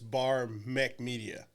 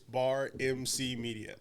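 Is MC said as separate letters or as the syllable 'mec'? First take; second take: mec; letters. First: MC is said as one syllable, 'mec'. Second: MC is said as two separate letters. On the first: The speaker calls it wrong. "most people will think like, oh, it's Bar Mech Media" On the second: The speaker calls it right. "no, it's Bar M C Media"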